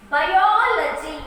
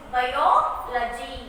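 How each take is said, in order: First: Biology slowly in one piece, O strong and long; loud, drawn-out O in Biology; stress on vowel. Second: Biology very slowly, split "bio... logy"; teacher's slow two-part biology; stressed syllable broken out. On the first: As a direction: punch the O in Biology. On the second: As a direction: pause after the long O in biology. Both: Shown as a demonstration. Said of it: "stress the vowels here".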